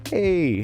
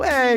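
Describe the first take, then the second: First: It is said in a restrained, low-key way. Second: It is said in an exaggerated, over-the-top way. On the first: "if I just go" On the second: "you go into Jerry with an over the top"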